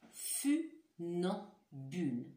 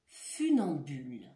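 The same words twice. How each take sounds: First: Funambule drawn out very slowly, each syllable clear; slow careful word. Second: Funambule said clearly with falling tune; word said for listening. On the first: Teacher slowly repeats funambule so pupils hear the sounds. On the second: Teacher says the word funambule for pupils to listen. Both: Shown as a demonstration. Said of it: "vous me disiez si vous entendez".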